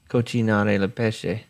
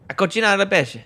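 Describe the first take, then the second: First: It is said plainly, without much energy. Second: It is said with lively, emphatic gusto.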